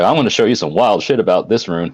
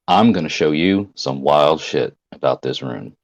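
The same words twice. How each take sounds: First: It is said in a light, joking tone. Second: It is said in a grave, serious tone. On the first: The speaker does not really mean it. "it wasn't like" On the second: The speaker really means it. "he had like a serious business tone to him"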